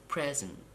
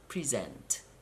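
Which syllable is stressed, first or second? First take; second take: first; second. First: The stress is on the first syllable. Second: The stress is on the second syllable. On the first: It is an adjective. "For two syllable nouns and adjectives, you have to stress the first syllable, as I have done" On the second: It is a verb. "Now you have to stress the second syllable"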